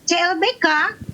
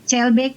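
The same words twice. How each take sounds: First: It is said in a cynical, sneering tone. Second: It is said in a sincere, warm tone. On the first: Old love has been thrown in the river. "nadanya dengan bahasa sinis" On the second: Old love has blossomed again. "Kalau begitu nadanya pasti maknanya adalah cinta lama bersemi kembali"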